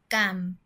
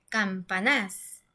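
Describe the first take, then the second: First: The stress is on the middle syllable. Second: The stress is on the last syllable. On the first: The speaker calls it right. "nos vamos con la penúltima sílaba" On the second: The speaker calls it wrong. "está en la última sílaba... ahí suena más fuerte"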